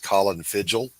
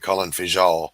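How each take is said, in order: First: The surname is said in a plain English way. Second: The surname is said in a French-style way.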